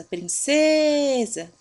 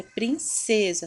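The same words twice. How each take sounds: First: "princesa" with CE long, high and loud; stressed middle syllable. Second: Said in the usual way. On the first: Shown as a demonstration. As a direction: call out "princesa", stretching "ce". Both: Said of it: "também é paroxítona".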